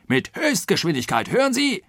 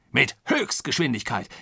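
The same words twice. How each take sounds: First: High, insistent angry outburst; riled. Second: Insistent repeat, pitch coming down; riled. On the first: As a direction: drum it into him indignantly. (aufgebracht, mit hoher Stimme) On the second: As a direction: hammer the point home, indignant. (aufgebracht nachdrücklich wiederholen) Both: A narrator's reading. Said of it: "in Harnisch brachte".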